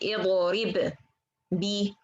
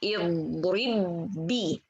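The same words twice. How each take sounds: First: The two b sounds are said separately. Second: The two b sounds merge into one doubled b. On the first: The speaker calls it wrong. "I don't say" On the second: The speaker calls it right. "I say"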